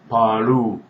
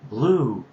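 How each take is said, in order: First: It is said with a Korean accent. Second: It is said with a plain English accent.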